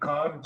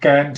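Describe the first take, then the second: First: It is said in a British accent. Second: It is said in an American accent. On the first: "this will be can't in uh, Britain" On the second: "This will be can't in America"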